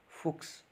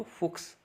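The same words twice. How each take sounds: First: Fuchs whispered, no voice; whispered repeat. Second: Fuchs said plainly; just say Fuchs clearly; German word Fuchs. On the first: (Fuchs फुसफुसाकर) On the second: (Fuchs साफ़ बोलें) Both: Shown as a demonstration. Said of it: "अब आप इस word को पढ़ें".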